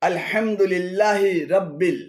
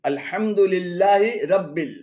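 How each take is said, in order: No difference in how they are said.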